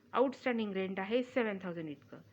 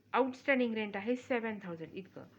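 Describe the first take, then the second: Both takes have the same delivery.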